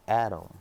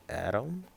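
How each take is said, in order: First: Said in the usual way. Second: Higher, rising question on Adam; questioning surprise. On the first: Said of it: "I see". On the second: Retold or imitated. Spotting Adam while running, acted questioning surprise. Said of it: "I'm like".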